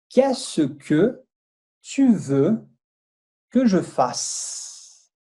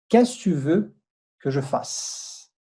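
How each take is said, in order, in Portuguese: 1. A frase é dita devagar e com cuidado. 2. A frase é dita num ritmo mais rápido. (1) "Eu vou pronunciar de, devagar" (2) "Um pouquinho mais rápido"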